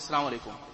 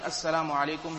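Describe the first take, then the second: First: The syllables are run together and shortened. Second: Every syllable is pronounced clearly and fully. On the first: The speaker calls it wrong. "As we say to one another" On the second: The speaker calls it right. "instead of saying"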